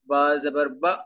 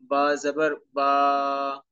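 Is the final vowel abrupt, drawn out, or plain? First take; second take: abrupt; drawn out. First: The final vowel is cut off with a jolt. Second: The final vowel is stretched out long. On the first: "ये जो झटका है, झटका भी नहीं होना चाहिए" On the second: "इसको आपने लंबा भी नहीं करना, मतलब ऐसे नहीं पढ़ना"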